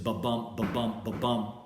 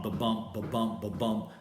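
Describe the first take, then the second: First: "ba-bump" with a light "ba" and a stressed "BUMP", repeated evenly; iamb rhythm. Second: "ba-bump" unstressed then stressed, three even beats; a steady iambic "ba-BUMP" pulse; heartbeat rhythm. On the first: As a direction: tap out "ba-bump" like a heartbeat, short then long. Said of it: "iamb is the most common English foot". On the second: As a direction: beat out "ba-bump" like a drum, short then long. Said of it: "short, long". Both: Shown as a demonstration.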